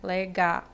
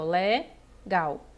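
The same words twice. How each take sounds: First: "legal" split in three, le, ga, then a lone l sounded as "u"; separação errada. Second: "legal" in two beats, le, then gal; separação silábica. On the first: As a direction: detach the final l of legal as its own beat. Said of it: "não poderia separar assim". (legal partido em três: le, ga, u) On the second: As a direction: draw out "le", pause, then "gal". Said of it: "a correta divisão silábica". (legal em duas sílabas, devagar) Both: Shown as a demonstration.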